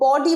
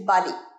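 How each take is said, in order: First: The first vowel is a rounded 'o' sound. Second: The first vowel is an open 'ah' sound. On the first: The speaker calls it wrong. "বডি বলবে না" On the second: The speaker calls it right. "Pronunciation বাডি"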